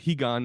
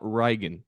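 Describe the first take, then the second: First: The name begins with an H sound. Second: The name begins with an R sound. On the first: This is how Brazilians say it. The speaker calls it right. "That's why I said Higan, ... the Brazilians don't say that" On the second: This follows the spelling with R. The speaker calls it wrong. "not Reigen, because it's an R"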